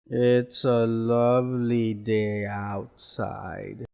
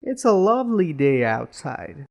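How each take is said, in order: First: Slow, low, downcast demonstration; sad. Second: Cheerful, lilting demonstration; happy. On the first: Teacher showing students how tone conveys feeling, sad. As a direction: drag it out low and sorrowful. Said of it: "maybe you're sad about it now". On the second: Teacher showing students how tone conveys feeling, happy. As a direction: say it as if pleased about it. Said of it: "if you're happy about it". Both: Shown as a demonstration.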